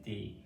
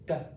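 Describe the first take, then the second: First: It is said as a consonant plus a vowel. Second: It is said as a short bare consonant. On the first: This is what the letter is called. "the name of these or this letter is D" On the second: This is the sound the letter makes in words. "the sound this letter makes is D"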